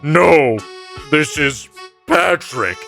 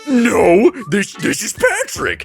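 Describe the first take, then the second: First: It is said flatly, without passion. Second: It is said with lively passion.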